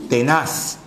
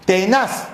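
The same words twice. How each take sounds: First: Said in the usual way. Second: "tenaz" with the second syllable sounded strongest; stress on final syllable. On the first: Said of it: "¿Qué parte me interesa?". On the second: Shown as a demonstration. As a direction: lean on the "naz" in "tenaz". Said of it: "¿Dónde suena más la palabra tenaz?".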